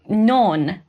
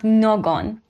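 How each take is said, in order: First: The middle g sound is dropped. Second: The middle g sound is clearly pronounced. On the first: The speaker calls it right. "it's uh, non" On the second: The speaker calls it wrong. "not någon"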